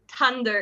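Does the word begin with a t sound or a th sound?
t sound. The word begins with a plain t sound. This is how speakers in Ireland say it. "they pronounce it like a normal t"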